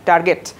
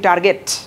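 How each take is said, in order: Both takes have the same delivery.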